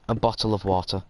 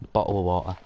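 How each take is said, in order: First: "bottle of water" with both T's sounded; unnaturally proper "bottle of water"; careful, fully pronounced T's. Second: Said in the usual way. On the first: Shown as a demonstration. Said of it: "But it's not natural to me". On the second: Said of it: "it's not natural to me".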